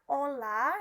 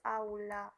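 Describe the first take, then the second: First: The first vowel is a plain o. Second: The first vowel is a gliding au. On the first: The speaker calls it wrong. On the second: The speaker calls it right. "yang sebenarnya harus"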